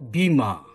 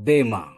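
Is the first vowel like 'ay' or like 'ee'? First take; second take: ee; ay. First: The first vowel sounds like 'ee'. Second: The first vowel is a long 'ay' sound. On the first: This follows the English spelling. The speaker calls it wrong. "That's why we pronounce it bima" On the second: This follows the original Greek sound. The speaker calls it right. "Actually it is in Greek bema"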